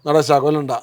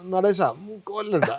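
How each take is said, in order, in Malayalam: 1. ഇത് ലളിതമായ, ഗൗരവമുള്ള സ്വരത്തിലാണ് പറഞ്ഞിരിക്കുന്നത്. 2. ഇത് കളിയായ, തമാശ നിറഞ്ഞ ശബ്ദ ഭാവത്തോടെയാണ് പറഞ്ഞിരിക്കുന്നത്. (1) "എന്ന് പറഞ്ഞാൽ കിട്ടില്ല" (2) "മറ്റേതാകുമ്പോൾ ഒരു ഹ്യൂമർ ഉണ്ട് അതിനകത്ത്, അതൊരു വോക്കൽ ട്രിക്കറിയാണ്"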